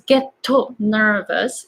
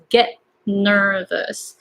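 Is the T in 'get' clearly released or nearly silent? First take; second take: released; nearly silent. First: The T is fully released with an added vowel. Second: The T is nearly silent before the N. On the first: The speaker calls it wrong. "you don't really pronounce" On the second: The speaker calls it right. "T becomes kind of silent"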